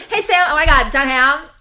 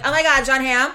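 First: Excited gushing. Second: Excited. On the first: Shown as a demonstration. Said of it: "that's the first thing you say". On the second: Retold or imitated. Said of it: "any other time I'm like".

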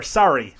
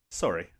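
First: "sorry" with an American open ah vowel; American pronunciation. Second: "Sorry." with a Kiwi vowel, low; New Zealand pronunciation. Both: Shown as a demonstration. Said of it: "as you Americans say".

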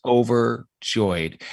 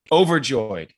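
First: Overjoyed drawn out slowly and savoured; slow emphatic. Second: Said in the usual way. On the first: Real, not acted. Guest recalling his reaction, slow and savouring. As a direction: let Overjoyed linger, stretched word. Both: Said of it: "That was my response".

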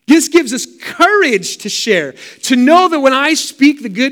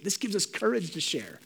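First: This gives us courage to share proclaimed higher and louder; bold proclamation. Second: This gives us courage to share said softly, almost under the breath; quiet, low and inward. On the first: Preacher to congregation, proclaiming boldly. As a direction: ring it out with conviction. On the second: Preacher to congregation, quietly, as an aside. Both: Shown as a demonstration.

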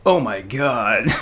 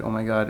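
First: Slow, low put-on voice; another voice. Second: Said in the usual way. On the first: Shown as a demonstration. Mimicking his own odd voice for friends, put-on. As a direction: draw it out as if someone else spoke. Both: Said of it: "like I had another voice when I said".

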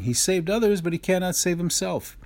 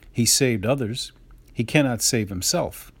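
First: Higher, sneering mockery of the crowd; mocking. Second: Said in the usual way. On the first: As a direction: jeer at him like a scoffing scribe. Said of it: "the scribes and Pharisees mock him". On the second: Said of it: "mocked him among themselves and said".

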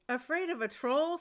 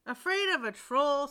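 First: Scoffing. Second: Louder scornful question; scoffing father. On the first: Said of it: "scoffed the farmer". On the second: Father mocks his frightened second son, scoffing loudly. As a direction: scoff at the son's fear. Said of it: "scoffed his father". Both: Acted.

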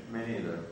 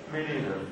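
First: "Me neither" again, much lower and softer, mumbled to himself; quieter repeat. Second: Said in the usual way. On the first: Shown as a demonstration. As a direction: drop the repeat of "Me neither" low and quiet like a sad echo.

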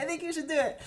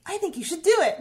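First: Gentler repeated urging. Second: Loud and high, pushing her to do it; emphatic urging. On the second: Friend insists loudly that she should post. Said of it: "and she was like". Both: Retold or imitated.

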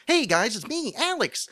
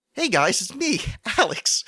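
First: Chipper host greeting. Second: High, loud bright vlogger intro; chipper host greeting. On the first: Retold or imitated. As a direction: pop the greeting up high like an eager vlogger. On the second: Pretend. Host mocks his own show voice in a high, loud greeting. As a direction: burst in like an eager vlogger. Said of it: "in the Alex Cast voice".

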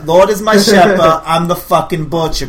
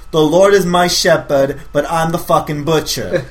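First: "Lord is my shepherd" louder and higher, "butcher" driven home slowly; pushing the line harder. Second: Feeding the actor his line, slow and steady; reading the line out. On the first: Director repeating the line for the actor, louder and pushier. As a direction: hammer it so the actor gets the menace. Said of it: "Come on, you're the butcher". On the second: Director feeding the actor his line, a slow read. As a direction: lay the line out slowly so he can copy it. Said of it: "your line is". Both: Pretend.

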